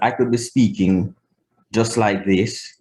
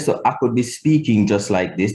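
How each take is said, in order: First: The word I is pronounced like eye. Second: The word I is pronounced like ah.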